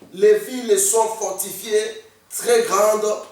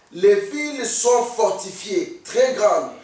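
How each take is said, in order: No difference in how they are said.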